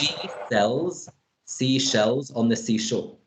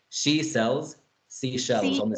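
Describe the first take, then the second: First: The sentence is said at a normal pace. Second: The sentence is said at a fast pace.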